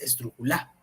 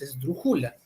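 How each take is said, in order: First: The stress falls on the last syllable. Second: The stress falls on the penultimate syllable. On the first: "no es la última" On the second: "tampoco es la penúltima"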